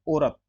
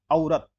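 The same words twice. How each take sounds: First: औरत said "orat"; no glide at the start of औरत; wrong o vowel. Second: औरत as "au-rat"; au diphthong. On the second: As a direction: glide a to u at the start of औरत. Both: Shown as a demonstration. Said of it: "नहीं, औरत".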